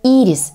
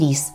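First: The stress is on the first syllable. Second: The stress is on the second syllable. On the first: The speaker calls it right. "Правильное произношение с ударением на первый слог" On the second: The speaker calls it wrong. "а не"

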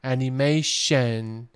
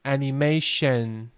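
First: The final syllable is dragged out and lengthened. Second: The same.

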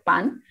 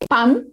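First: The word ends with an 'n' sound. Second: The word ends with an 'm' sound. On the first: This is the standard pronunciation. "por pan" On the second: This is the regional Cali pronunciation. "la realización de la N final como M"

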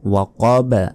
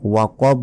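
First: The final b is released with a bouncing echo. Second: The final b ends flat without any bounce. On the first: The speaker calls it right. "ধাক্কা দিয়ে উচ্চারণ করতে হবে" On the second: The speaker calls it wrong. "ওয়াকব বললেও হবে না"

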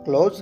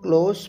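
First: The word ends with a z sound. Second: The word ends with an s sound. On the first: It means to shut. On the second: It means near.

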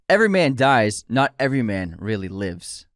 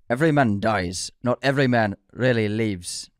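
First: It is said in his normal voice. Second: It is said in a put-on Scottish accent.

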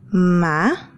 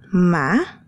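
First: The pitch rises from middle to high. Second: The same.

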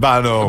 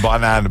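First: The second syllable has an 'o' vowel. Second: The second syllable has an open 'a' vowel. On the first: The speaker calls it right. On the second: The speaker calls it wrong. "Nem banán"

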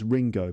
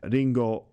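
First: It is said with an English pronunciation. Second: It is said with a Japanese pronunciation. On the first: "In my pronunciation" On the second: "but in Japanese, it'd be like"

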